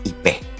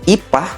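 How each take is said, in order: First: The final vowel is an 'eh' sound. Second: The final vowel is an open 'ah' sound. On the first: This is how Betawi people say it. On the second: This is the ordinary way to say it.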